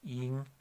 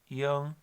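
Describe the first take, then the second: First: The final sounds like English 'ing'. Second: The final sounds rounded, like 'yong'. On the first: "a bit more like ing, like we do in English" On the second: "I was taught young"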